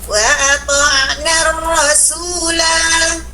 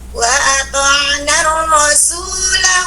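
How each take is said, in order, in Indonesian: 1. Vokal akhir dibaca panjang saat berhenti. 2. Vokal akhir dibaca pendek, disambung dengan kata berikutnya. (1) "Wakaf panjang dia" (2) "Tidak dibaca panjang"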